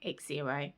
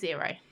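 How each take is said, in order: First: It begins with an 'eks' sound before 'zero'. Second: It begins directly with a 'z' sound. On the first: The speaker calls it wrong. "I was pronouncing it X zero" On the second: The speaker calls it right. "it's pronounced zero"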